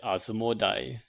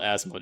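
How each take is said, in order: First: The name ends with an 'eye' sound. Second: The name ends with an 'ee' sound. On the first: The speaker calls it right. "it's Asmodai" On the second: The speaker calls it wrong. "I'm saying it wrong. It's not Asmodee"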